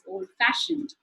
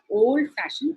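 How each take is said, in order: First: The stress falls on the word fashioned. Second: The stress falls on the word old. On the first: The speaker calls it right. "the f sound is stressed more" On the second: The speaker calls it wrong. "It's not"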